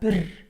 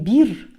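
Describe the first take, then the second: First: The vowel is a short, lax, lower i. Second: The vowel is a long, tense, high i. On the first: The speaker calls it right. "а бір" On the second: The speaker calls it wrong. "Не бир"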